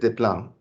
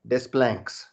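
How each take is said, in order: First: The name is said with no s sounds. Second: The s sounds in the name are pronounced. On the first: The speaker calls it right. "this is just Deplan, and that is the correct" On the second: The speaker calls it wrong. "you certainly don't say Desplanques"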